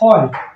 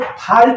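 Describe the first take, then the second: First: The vowel is a rounded 'aw' sound. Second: The vowel is an open 'ah' sound. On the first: The speaker calls it right. "तो इस तरह से हो गया फ़ॉल्ट।" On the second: The speaker calls it wrong. "इसको फ़ाल्ट नहीं पढ़ेंगे।"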